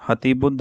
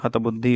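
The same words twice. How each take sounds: First: हतिबुद्ध said ha-ti-buddh, ending on a consonant; the incorrect हतिबुद्ध with i after ta; wrong form. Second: हतबुद्धि said hat-buddhi, ending on i; the correct हतबुद्धि with final i; correct form. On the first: Teacher rejecting हतिबुद्ध, said ha-ti-buddh. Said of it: "नहीं होगा". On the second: Teacher giving the correct हतबुद्धि, hat-buddhi. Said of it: "होगा". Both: Shown as a demonstration.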